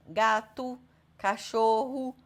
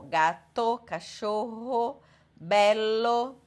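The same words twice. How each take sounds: First: Gato and cachorro ending in U; Portuguese final U. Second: Gato, cachorro, bello ending in a round O; clear final O. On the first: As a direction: close the O to U. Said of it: "como se acabasse com U". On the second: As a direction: keep the final O open. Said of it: "acaba com O". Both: Shown as a demonstration.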